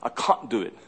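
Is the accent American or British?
British. It is said with a British accent.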